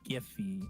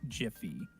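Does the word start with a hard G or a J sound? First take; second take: hard G; J sound. First: It begins with a hard G sound. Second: It begins with a soft J sound. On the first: The speaker calls it right. "you said it right. It is Giphy" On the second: The speaker calls it wrong. "not Jiffy"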